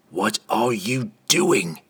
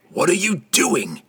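First: Slow, firm demand in a put-on voice. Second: Much higher, insistent demand; more emphatic demand. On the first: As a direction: press for an answer, slowly. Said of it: "Entreri demanded". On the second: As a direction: push harder, stress on you. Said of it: "Entreri demanded more emphatically". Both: A narrator's reading.

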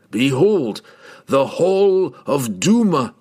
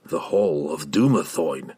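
First: Slow, loud, raised announcement; grand proclamation. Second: Dumathoin said slowly and low, falling; reverent explaining. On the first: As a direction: proclaim it like opening a treasure vault. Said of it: "the words stuck in his throat". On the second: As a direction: hold Dumathoin with a slow falling tone. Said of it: "he explained". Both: A narrator's reading.

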